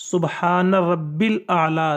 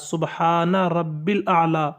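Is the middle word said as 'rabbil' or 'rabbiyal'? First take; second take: rabbil; rabbil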